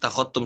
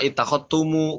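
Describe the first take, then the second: First: The word ends on a bare m sound. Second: The final m is followed by an added u vowel. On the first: The speaker calls it right. "tapi ittakhadtum saja" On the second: The speaker calls it wrong. "mimnya tidak dibaca dengan eh, jama ittakhadtumu bukan"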